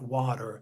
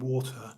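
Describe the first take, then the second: First: The word is said in an American accent. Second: The word is said in a British accent.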